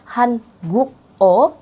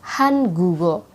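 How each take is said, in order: First: The k stays separate from the vowel. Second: The consonant links into the following vowel. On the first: The speaker calls it wrong. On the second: The speaker calls it right. "tapi melainkan han gugo"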